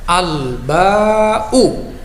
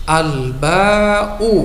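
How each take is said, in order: Both takes have the same delivery.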